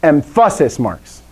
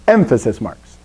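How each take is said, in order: First: Emphasis as em-FASS-is; emphasis said wrongly, em-FASS-is; stress on second syllable. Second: Emphasis as EM-fuh-sis; emphasis with opening EM stressed, lower pitch; stress on first syllable. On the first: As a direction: lean on the middle syllable of emphasis. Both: Shown as a demonstration. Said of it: "just emphasize that syllable".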